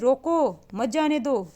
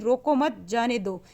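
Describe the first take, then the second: First: There is a pause right after 'roko'. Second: There is a pause right after 'mat'. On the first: The person should be stopped. "रोकने का भाव" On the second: The person should be let go. "जाने देना"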